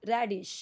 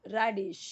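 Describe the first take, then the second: Both takes have the same delivery.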